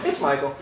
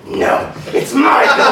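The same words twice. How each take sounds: First: Meek surrender. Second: Slow, high shouted correction; forceful insistence. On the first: Woman gives in to haunt actor, meek agreement. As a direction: back down in a small soft voice. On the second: Haunt actor overrules the woman's name, shouted insistence. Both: Retold or imitated.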